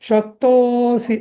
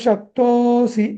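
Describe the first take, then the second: Both takes have the same delivery.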